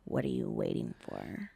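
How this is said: The line is said in a sexy way. "she said it differently"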